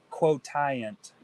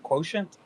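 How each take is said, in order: First: It is said with a French-sounding pronunciation. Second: It is said with a plain English pronunciation. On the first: "Got a little bit of a French accent to it" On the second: "I think that's how you pronounce it"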